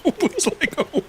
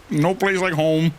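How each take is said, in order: First: Laughing. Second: Dorothy imitation. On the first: Retold or imitated. Repeated Dorothy quote. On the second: Dorothy quote, heels clacking.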